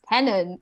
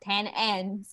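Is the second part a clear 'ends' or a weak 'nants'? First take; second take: weak nants; clear ends. First: The second part is a weak, reduced 'nants'. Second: The second part sounds like a full word 'ends'. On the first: The speaker calls it right. "it's tenants" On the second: The speaker calls it wrong. "This is not ten ends"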